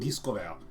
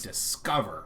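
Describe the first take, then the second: First: French-style intonation, unlike the English stress pattern. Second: English intonation, with the stress on the second syllable. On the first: "but in French it's like discover" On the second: "in English you say discover where you hit that second one"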